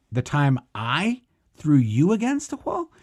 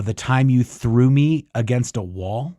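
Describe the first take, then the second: First: Mock-baffled question, "I" and "wall" rising steeply; incredulous echo question. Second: Said in the usual way. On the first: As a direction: stress on I and you, pitch swooping up high. Retold disbelieving echo of accusation.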